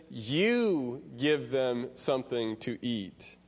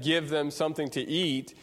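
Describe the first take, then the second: First: "You" leaned on hard, the rest slow and unhurried; stress on YOU. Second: Said in the usual way. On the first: Shown as a demonstration. Preacher quoting Jesus to his disciples, stress on "You". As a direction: make "You" the point of the line, slowly. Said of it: "you" here is emphatic". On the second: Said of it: "Jesus could have just said".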